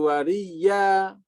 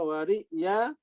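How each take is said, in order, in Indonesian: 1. Hamzah itu diganti dengan 'y' yang digandakan. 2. Kata ini tetap memiliki hamzah sebelum 'ya'. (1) "menjadi wariya itu maknanya beda" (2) "jika kalau diibdal menjadi iltibas makna"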